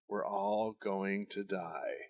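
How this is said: It is said calmly, almost monotone.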